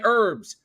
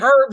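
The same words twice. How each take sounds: First: It starts with no h sound. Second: It starts with a pronounced h sound. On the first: It refers to the plants. The speaker calls it right. "So we say herbs" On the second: It sounds like the man's name. The speaker calls it wrong. "it's like I'm talking to Herb"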